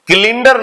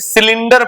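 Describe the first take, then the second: First: The word begins with a k sound. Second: The word begins with an s sound. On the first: The speaker calls it wrong. "इसे किलिंडर नहीं" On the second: The speaker calls it right. "इसे सिलेंडर पढ़ते हैं"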